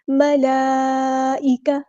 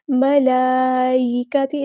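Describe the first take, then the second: First: ملائکہ with a clear hamza, slow; correct recitation. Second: ملائکتی with the hamza hidden, leaning to ya; wrong recitation. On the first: Teacher models the right ملائکہ slowly. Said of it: "حمزہ کی آواز کو واضح ادا کرنا ہے". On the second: Teacher demonstrates the wrong ملائکتی slowly. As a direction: slur the hamza of ملائکتی toward ی. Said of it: "اس طرح نہیں، چھپانا نہیں ہے". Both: Shown as a demonstration.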